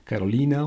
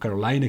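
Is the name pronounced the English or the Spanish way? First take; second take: Spanish; English. First: The name has a Spanish pronunciation. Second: The name has an English pronunciation.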